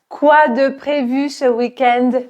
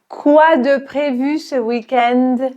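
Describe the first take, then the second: No difference in how they are said.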